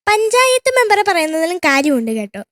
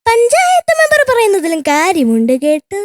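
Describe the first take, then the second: First: It is said in a plain, standard Malayalam accent. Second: It is said in a musical Thiruvananthapuram accent. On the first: "ഇതാണ് മര്യാദ എന്ന് വെച്ചാല് സാധാരണയായിട്ട് പറയുന്ന dialogue" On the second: "തിരുവനന്തപുരംകാര് പറയുന്നത്"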